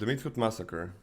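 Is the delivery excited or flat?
flat. It is said in a plain, unexcited way. The speaker calls it wrong. "That's not how you read it the first time?"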